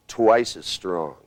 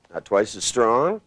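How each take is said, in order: First: "Twice as strong" slow, ending on a firm fall; falling command. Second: "Not twice as strong" slow, ending on a rise as if asking; rising wrong tune. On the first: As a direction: land "Twice as strong" down like an order. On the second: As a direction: lift the end of "Not twice as strong" like a question. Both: Shown as a demonstration. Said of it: "do you hear the difference".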